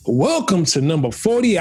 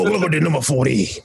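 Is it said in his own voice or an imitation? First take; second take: own voice; imitation. First: It is said in his own normal voice. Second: It is said imitating another man's voice.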